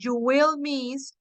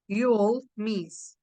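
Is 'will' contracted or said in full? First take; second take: full; contracted. First: The word will is said in full. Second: The word will is contracted onto you. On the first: "you can say you will miss" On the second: "you can use the contraction"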